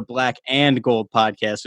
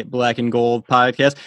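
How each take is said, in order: First: "and" said in full, with its d. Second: Said in the usual way. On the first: Shown as a demonstration. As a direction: sound out "and" as a separate word. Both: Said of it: "phonetical error on my end".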